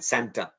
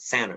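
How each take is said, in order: First: The T after the N is pronounced. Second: The T after the N is dropped. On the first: The speaker calls it wrong. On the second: The speaker calls it right. "we say"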